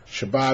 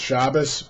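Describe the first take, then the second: First: The word ends in a t sound. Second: The word ends in an s sound.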